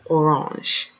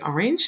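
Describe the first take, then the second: First: The word orange has a French pronunciation. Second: The word orange has an English pronunciation. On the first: The speaker calls it right. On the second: The speaker calls it wrong.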